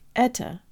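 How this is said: It is said with an English-like vowel quality. The speaker calls it wrong. "our это sounds more like это"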